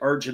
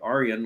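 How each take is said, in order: First: The name is said with an English j sound. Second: The name is said with a Dutch y sound. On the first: "Could be Arjun like Arjun Namala" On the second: "like the Dutch would say"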